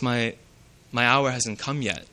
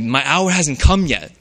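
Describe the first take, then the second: First: It is said in a softer, gentle tone. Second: It is said in a forceful, aggressive tone. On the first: The request might still be granted. "Still leaving room for the possibility for him to provide" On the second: The request is flatly refused. "In a very forceful tone, aggressive tone"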